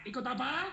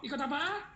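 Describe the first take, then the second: First: Said in the usual way. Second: Asks ikut apa with a raised pitch to push the crowd; louder prompt. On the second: Shown as a demonstration. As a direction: repeat ikut apa higher, urging them to answer. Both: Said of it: "Ya jawab dong".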